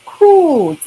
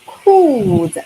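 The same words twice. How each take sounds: First: Cold said higher and louder, slow and clear; teacher modelling Cold for students; model for repeating. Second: Cold said as a clear example word; model word for repeating. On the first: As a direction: lead the class: Cold, for them to echo. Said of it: "maybe you can read after me". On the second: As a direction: present the word cold to the class. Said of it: "the first one is". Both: Shown as a demonstration.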